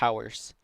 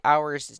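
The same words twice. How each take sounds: First: The h at the start is pronounced. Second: The h at the start is silent. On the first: This helps with remembering the spelling. "when I try to spell it, I say hours" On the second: This is the everyday pronunciation. "I say hours normally"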